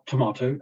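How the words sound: It is said with a British pronunciation. "in British English, it's tomato"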